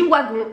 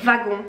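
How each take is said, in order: First: The word begins with a W sound. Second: The word begins with a V sound. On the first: The speaker calls it right. "ne se prononce pas comme un V" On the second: The speaker calls it wrong. "on va pas dire wagon"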